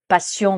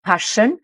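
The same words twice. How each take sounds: First: PASSION the French way, pah-SYON with nasal ending; prononciation française. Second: PASSION the English way, PASH-un; prononciation anglaise. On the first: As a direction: say PASSION as a French word, with an S sound. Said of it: "qu'on ne va pas prononcer passion". (« passion » à la française, avec le son S) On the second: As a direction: say PASSION with SH for the double S. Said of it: "le double S se prononce avec le son ch". (« passion » à l'anglaise, avec le son ch) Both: Shown as a demonstration.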